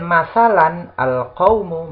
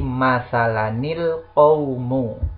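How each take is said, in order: First: The words are said without a linking nun. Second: The words are linked with an added 'ni' sound.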